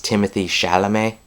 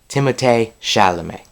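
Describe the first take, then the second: First: The first name sounds like English 'Timothy'. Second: The first name does not sound like 'Timothy'. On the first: The speaker calls it wrong. "it looks like it says Timothy Chalamet" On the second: The speaker calls it right. "you actually pronounce it Timothée Chalamet"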